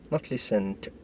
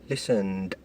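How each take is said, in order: First: The ending is not pronounced as a d sound. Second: The ending is pronounced as a d sound. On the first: The speaker calls it wrong. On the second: The speaker calls it right. "verbs which take d"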